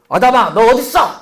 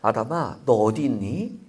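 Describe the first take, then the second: First: It is said in a harsh, threatening tone. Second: It is said in a warm, gentle tone.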